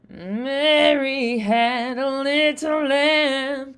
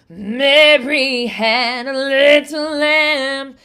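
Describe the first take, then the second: First: It is said softly, at low volume. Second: It is said louder, with more volume. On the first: "going to do this a lot softer" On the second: "I add volume"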